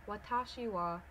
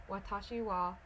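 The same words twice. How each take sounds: No difference in how they are said.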